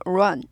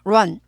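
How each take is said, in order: First: The r starts with a quick rounded oo onset. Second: The same.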